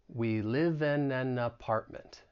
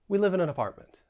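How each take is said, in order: First: The sentence is said slowly. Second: The sentence is said fast. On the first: "say it slowly" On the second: "then we'll get faster"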